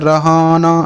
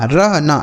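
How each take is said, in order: First: It is said as three syllables, ra-ha-na. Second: It is said as two syllables, rah-na. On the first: The speaker calls it wrong. "ऐसे नहीं पढ़ते" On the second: The speaker calls it right. "क्योंकि हम ऐसे पढ़ते हैं"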